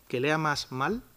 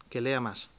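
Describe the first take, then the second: First: "mal" tacked on with a rising, teasing tune; mock misreading, stress on mal. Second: Said in the usual way. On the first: Shown as a demonstration. Joking to the audience, stressing "mal" with a rise. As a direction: twist it into "que lea más mal", lifting "mal". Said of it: "Es decir, no era un". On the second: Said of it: "Su hijo lee mal".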